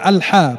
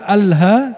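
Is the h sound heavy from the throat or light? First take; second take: heavy; light. First: The h sound is heavy, from the throat. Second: The h sound is light and breathy. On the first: It means praise. The speaker calls it right. "bacanya Al-Ha, pakai Ha, artinya pujian" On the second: It means death. The speaker calls it wrong. "pakai Ha bukan Ha, artinya kematian"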